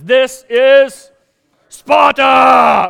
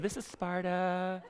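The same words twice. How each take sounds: First: It is said with steely determination. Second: It is said weakly, without determination.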